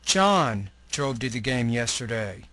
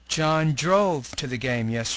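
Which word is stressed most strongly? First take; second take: John; drove. First: The strongest stress falls on the word John. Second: The strongest stress falls on the word drove. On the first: It answers who drove to the game. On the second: It answers how he got to the game.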